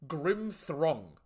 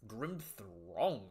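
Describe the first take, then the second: First: Said in the usual way. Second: Quiet, puzzled rising "Grim Throng?"; puzzled question. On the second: Shown as a demonstration. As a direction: ask "Grim Throng?" in disbelief, softly.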